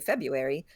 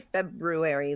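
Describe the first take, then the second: First: The first R after the b is dropped. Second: The first R after the b is pronounced. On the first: "if you say February, then there is a silent R" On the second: "if you say February, then there is no silent R"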